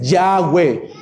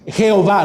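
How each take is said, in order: First: The name starts with a y sound. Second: The name starts with a throaty h sound. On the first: The speaker calls it right. "es Yahweh" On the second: The speaker calls it wrong. "No es Jehová"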